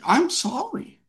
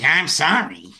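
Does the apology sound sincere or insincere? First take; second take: sincere; insincere. First: The apology sounds heartfelt and sincere. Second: The apology sounds dismissive and insincere.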